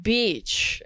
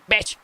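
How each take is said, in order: First: "Beach" said long and slow; drawn-out vowel. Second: "Bitch" snapped out fast; short vowel. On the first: Streamer mimics explainer videos showing the difference, drawn-out vowel. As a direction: stretch the ee in "Beach". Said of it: "they go like". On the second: Streamer mimics explainer videos' other word, short and fast. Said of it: "one is faster". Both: Retold or imitated.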